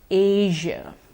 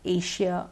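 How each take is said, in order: First: The middle consonant is a voiced 'zh' sound. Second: The middle consonant is a voiceless 'sh' sound. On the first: The speaker calls it right. "the correct pronunciation is actually with the j sound" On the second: The speaker calls it wrong. "we've been using the sh so far"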